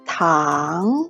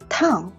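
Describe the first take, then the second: First: The pitch rises from mid to high. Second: The pitch drops sharply from high. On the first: "a rising tone" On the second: "a falling tone"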